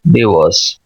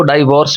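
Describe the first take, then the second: First: डिवोर्स starting with short DI, as in sit; correct short first vowel. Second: डाइवोर्स starting with long DAI, like die; Urdu-speaker mispronunciation. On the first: Teacher models divorce for learners, short first vowel. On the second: Teacher quotes the students' mistake, DAI in first syllable. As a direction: say DIE-vorce, diphthong first. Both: Shown as a demonstration. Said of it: "ये डाइवोर्स नहीं है".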